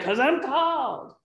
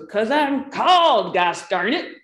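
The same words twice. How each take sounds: First: Much higher, slowed, drawn-out called; emphatic retort. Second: Higher, louder, defiant blurt with a drawn-out called; emphatic retort. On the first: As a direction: proclaim the calling with a mock flourish. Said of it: "You know what he said, right?". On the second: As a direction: fire back proudly at the other pastor. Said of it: "And he goes". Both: Retold or imitated.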